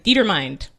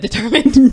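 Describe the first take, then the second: First: The word is sounded out as it is spelled. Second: The word is said in its usual way. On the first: A child guessed the pronunciation from the spelling. The speaker calls it wrong. "she said determined" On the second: This is how the word is normally pronounced. The speaker calls it right. "instead of determined"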